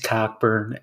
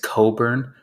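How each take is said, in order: First: The name is said with a clear k sound. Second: The name is said without a k sound. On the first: The speaker calls it right. "Dude's name is Cockburn" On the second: The speaker calls it wrong. "two of those letters are silent"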